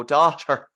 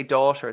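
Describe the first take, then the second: First: DAUGHTER in a loud, exaggerated Irish accent; overdone Irish accent. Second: Said in the usual way. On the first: Host mimics the film actors, overdone Irish accent. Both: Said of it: "they're almost overdoing it".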